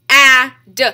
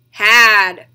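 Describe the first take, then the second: First: "H-A-D" as breath h, short a, duh; sounded out. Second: Said in the usual way. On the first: Shown as a demonstration. Teacher tapping out the next word, sounded out. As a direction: say "H-A-D" sound by sound, loud vowel. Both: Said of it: "three different sounds".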